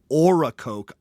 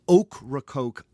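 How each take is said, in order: First: No k sound follows the first O. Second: A k sound follows the first O. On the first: The speaker calls it wrong. "and not Oracoke Island" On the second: The speaker calls it right. "That's Ocracoke Island"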